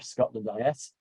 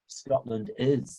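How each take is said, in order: First: IS is spelled out as two separate letters. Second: IS is said as the single word 'is'. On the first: The speaker calls it right. "I prefer Scotland I S" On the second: The speaker calls it wrong. "they keep liking uh, to call it. I don't like that particular pronunciation"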